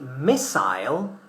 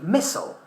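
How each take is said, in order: First: It is said with a British accent. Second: It is said with an American accent.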